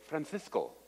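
It is said with a Spain Spanish accent. The speaker is from Spain. "if you were from Spain, you would say"

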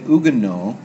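The word is pronounced the French way. "in the French we would say Huguenot"

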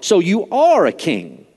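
The word 'are' is emphasized.

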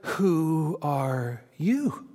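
The word "you" is stressed. "Or was it"

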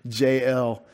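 The name is said with a Southern American accent.

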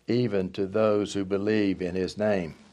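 The voice falls to a full, final stop. The sentence ends here. The speaker calls it wrong. "I read it as if there were a period"

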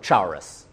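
It is said with a Southern country pronunciation.

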